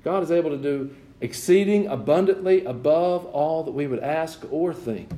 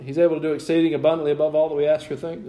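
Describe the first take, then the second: First: Measured, emphatic scripture quote; unhurried preacher's recital, easing down at the end; deliberate verse proclamation. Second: Rattled-off verse, fast; hurried recital from memory; quick checking aside. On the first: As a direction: proclaim the verse, letting each phrase land. Proclaims the verse after checking. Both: Real, not acted.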